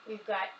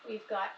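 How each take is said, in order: Both takes have the same delivery.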